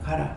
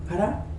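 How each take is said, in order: First: It is said as a plain, direct command. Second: It is said with a changed, reluctant intonation. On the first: You are genuinely told to go. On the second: You may go, since you will not listen anyway.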